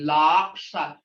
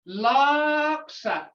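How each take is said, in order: First: The vowel is short and blunt. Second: The vowel is drawn out long. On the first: It means a hoof. "your a is short and blunt" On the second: It means a liar. "You draw it out. Hear that tone? That means a liar"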